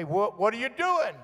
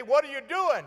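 First: Higher-pitched returning call; echo answering back. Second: High-pitched call across a distance; hollering. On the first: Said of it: "it would say". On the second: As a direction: call out as if testing an echo. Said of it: "you could holler". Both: Retold or imitated.

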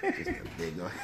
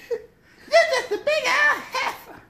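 First: Said in the usual way. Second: Very high, slow and laughing; high mocking voice. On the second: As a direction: stretch the insult out high. Quoting movie line.

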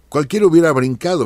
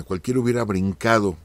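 First: Higher and louder, bursting out; emphatic exclamation. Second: Said in the usual way. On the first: Real, not acted. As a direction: exclaim it, as if anyone would have leapt up. Exclaims others would jump in.

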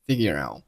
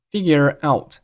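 First: "figure out" ending with the t held silent; unreleased t. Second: Said in the usual way. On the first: Shown as a demonstration. Teacher showing learners final stops, "figure out" with unreleased t. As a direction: stop "out" before the t bursts. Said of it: "out结尾的t并没有爆出来".

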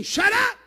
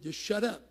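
First: "Shut up!" shouted much higher, ending on a sharp "up"; blunt shout. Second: Said in the usual way. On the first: Shown as a demonstration. Preacher acting out the blunt thief, shouted. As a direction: bark "Shut up!" bluntly, Mississippi style. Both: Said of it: "What does that mean?".

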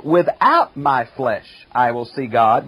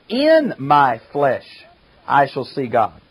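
First: "Without" slow and leaned on; "Without" stretched and weighted, "flesh" lighter; stress on without. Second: "In" drawn out slowly and leaned on; the word "In" slow and weighted before "my flesh"; stress on in. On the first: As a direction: press "Without" to contrast the translations. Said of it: "others have". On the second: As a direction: hit "In" to set it against the other readings. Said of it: "Some translations have". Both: Shown as a demonstration.

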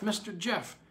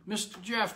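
First: High call sinking with a falling tune; old man calling again. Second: Put-on high, urgent call of an old man. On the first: Acted. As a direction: call again, voice dropping at the end. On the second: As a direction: call across the yard, desperate. Old man calls for Jeff.

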